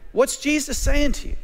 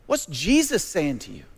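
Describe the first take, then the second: First: Higher, pressing repeat with weight on saying; urgent preacher's repeat, "saying" lifted high; emphatic repeat. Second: Said in the usual way. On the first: Shown as a demonstration. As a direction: push the question home, stressing "saying". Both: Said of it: "repeated question".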